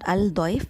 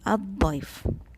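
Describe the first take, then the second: First: The l of the article is clearly pronounced. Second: The l blends into the following consonant. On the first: The speaker calls it wrong. "It's not Al-Daif" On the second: The speaker calls it right. "it is Ad-Daif"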